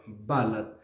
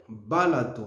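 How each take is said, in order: First: "balate" ending on T, no final vowel; two-syllable mistaken "balate"; wrong, O dropped. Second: "balato" ending in a light "oo"; correct final O. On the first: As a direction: say "balate" as ba-LAT. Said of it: "Non, est balate". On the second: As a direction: say "balato" as ba-LA-too. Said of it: "Le mot c'est balato". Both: Shown as a demonstration.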